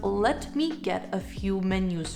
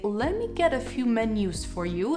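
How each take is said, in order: First: 'Let me' is said as two separate words. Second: 'Let me' blends into 'lemme'. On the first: "instead of" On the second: "Lemme is short for let me"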